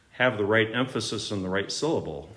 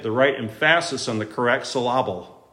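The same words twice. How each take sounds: First: Said in the usual way. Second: "emphasis" as em-FASS-is, "syllable" as suh-LAH-ble; misplaced stress. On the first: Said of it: "The right emphasis or the wrong emphasis". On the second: Retold or imitated. Teacher jokes in English class, stressing em-FASS-is and suh-LAH-ble.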